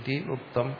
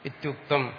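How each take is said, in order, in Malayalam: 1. ഈ രണ്ട് വാക്കുകളും വെവ്വേറെയാണ് പറയുന്നത്, ചേർക്കാതെ. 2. രണ്ട് വാക്കുകളും ചേർന്ന് ഒന്നാകുന്നു, ityuktam. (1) "ഇതി എന്ന് പറയുന്ന വേറെ ഒരു പദമാണ്" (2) "സന്ധി ചെയ്തിട്ട് ഇത്യുക്തമെന്നും പറയാം"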